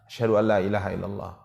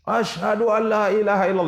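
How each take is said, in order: First: It is said in a soft, low voice. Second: It is said in a loud, strong voice. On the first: "ucapkan dengan suara agak rendah, dengan suara yang tidak keras" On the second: "ulangi lagi dengan suara yang keras"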